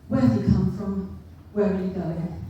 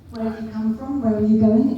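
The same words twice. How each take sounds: First: It is asked in a harsh, interrogating tone. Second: It is asked in a friendly, polite tone.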